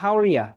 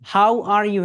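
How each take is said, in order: First: The last word is reduced to 'ya'. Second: The last word is a full 'you'. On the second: "how are ইউ হয়ে যাবে"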